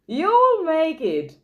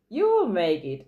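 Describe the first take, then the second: First: "You will make it" higher, louder and slow, WILL hit hard; rally the listener, lean hard on WILL; emphatic encouragement. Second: Said in the usual way. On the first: Shown as a demonstration. Teacher encourages struggling learners, emphatic and slow. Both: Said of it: "Then you can improve on those things".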